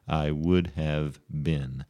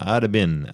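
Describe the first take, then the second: First: 'Would' is said in full as a separate word. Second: 'Would' is contracted to a short 'd' sound. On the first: "which is the correct usage of the third conditional" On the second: "people talk like that all the time"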